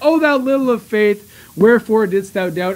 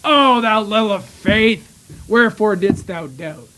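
First: It sounds proud and encouraging. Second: It sounds disappointed and scolding.

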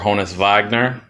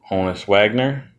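First: The name is said with a German accent. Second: The name is said with a plain English pronunciation.

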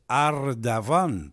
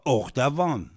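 First: The name begins with an 'a' vowel. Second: The name begins with an 'o' vowel. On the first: This is the name's real form. The speaker calls it right. "c'est Ardavan" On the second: This is how the name is said locally. The speaker calls it wrong. "il ne s'appelle pas Ordavan"

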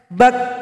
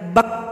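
First: The final k is released with audible breath. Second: The final k ends without audible breath. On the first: The speaker calls it right. "harus ada bunyi nafas" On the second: The speaker calls it wrong. "tidak boleh dibaca bak, itu salah"

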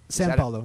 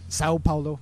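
First: The first word ends with an N sound. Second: The first word ends with an O vowel.

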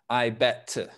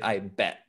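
First: The final T of 'bet' is fully released with an audible burst. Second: The final T of 'bet' is cut off with no audible burst. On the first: The speaker calls it wrong. "We don't say, I bet to, right? ... the tongue doesn't come down" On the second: The speaker calls it right. "We don't finish the T sound. ... We just say, I bet"

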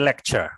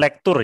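First: The middle is said with a 'ch' sound. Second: The middle is said as a plain 'kt' sound. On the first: The speaker calls it right. "tapi lecture" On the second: The speaker calls it wrong. "Bukan lektur ya"

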